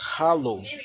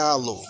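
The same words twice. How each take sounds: First: The word begins with a breathy h sound. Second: The word begins directly with the vowel. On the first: The speaker calls it right. "que é halo" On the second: The speaker calls it wrong. "não é halo"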